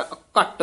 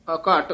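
First: ਅਘਟ with short a and hard t; short tight vowel. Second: ਅਘਟ with long aa before a single t; long vowel. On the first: Teacher showing what not to say, ਅਘਟ tight and short. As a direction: cut the second vowel of ਅਘਟ short onto the t. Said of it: "ਅਘਟ ਨਹੀਂ ਬੋਲਣਾ". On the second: Teacher correcting a pupil, ਅਘਟ with long second vowel. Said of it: "ਅਘਟ ਉਚਾਰਨ ਕਰਨਾ ਹੈ". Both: Shown as a demonstration.

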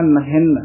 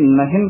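First: ਨਹਿਨ with held n, "nahinn"; slightly tightened. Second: ਨਹਿਨ with a single final n; plain "nahin" for ਨਹਿਨ, untightened; others' loose reading. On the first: Shown as a demonstration. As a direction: press on the final n of ਨਹਿਨ. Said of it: "ਉਚਾਰਨ ਕਰਨਾ ਹੈ". (ਨਹਿਨ ਥੋੜ੍ਹਾ ਕੱਸ ਕੇ) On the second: Retold or imitated. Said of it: "ਕਈ ਨਹਿਨ ਕਰਦੇ ਹਨ". (ਨਹਿਨ ਢਿੱਲਾ, ਇਕਹਿਰੇ 'ਨ' ਨਾਲ)

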